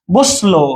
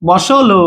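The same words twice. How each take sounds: First: বসলো with s running straight into lo; correct pronunciation demo. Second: বসলো in three syllables, bo-so-lo; wrong pronunciation demo. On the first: Teacher showing how the word really sounds, correct pronunciation demo. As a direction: say বসলো with no vowel after the s. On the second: Teacher showing how not to say it, wrong pronunciation demo. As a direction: put a clear o after the s in বসলো. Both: Shown as a demonstration. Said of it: "এরকম না".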